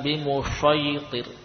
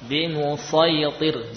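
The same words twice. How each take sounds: First: The consonant sounds like a 'sh' sound. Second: The consonant is a heavy, emphatic 's' sound. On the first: The speaker calls it wrong. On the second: The speaker calls it right.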